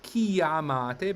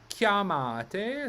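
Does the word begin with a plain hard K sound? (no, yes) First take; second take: no; yes. First: The word does not begin with a hard K. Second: The word begins with a hard K sound. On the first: The speaker calls it wrong. "Not chiamate" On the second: The speaker calls it right. "but chiamate. So in I P A, ... it's just K J"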